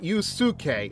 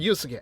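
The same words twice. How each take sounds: First: The vowel after the s is clearly voiced. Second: The vowel after the s is nearly silent. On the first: The speaker calls it wrong. "It's not Yusuke" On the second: The speaker calls it right. "it just sounds like it's like just kind of just there"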